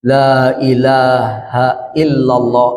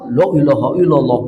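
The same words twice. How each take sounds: First: The phrase is said slowly. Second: The phrase is said quickly. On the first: The speaker calls it right. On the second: The speaker calls it wrong. "itu bingung pasiennya"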